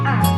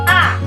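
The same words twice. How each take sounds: First: The vowel is said in a soft voice. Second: The vowel is said in a high voice. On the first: "suara anak akan pelan A" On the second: "suara anak meninggi dengan A"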